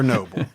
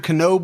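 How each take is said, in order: First: The name begins with a silent K. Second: The name begins with a sounded K. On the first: "or is it silent?" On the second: "is it a hard K"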